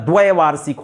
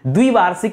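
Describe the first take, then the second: First: The first syllable has an 'ai' vowel. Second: The first syllable has a short 'i' vowel. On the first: The speaker calls it right. "होता है" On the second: The speaker calls it wrong. "नहीं होता"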